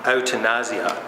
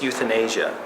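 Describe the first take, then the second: First: The word is pronounced with Dutch sounds. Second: The word is pronounced with English sounds. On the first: "in Dutch they pronounce it euthanasia" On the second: "in English it's euthanasia"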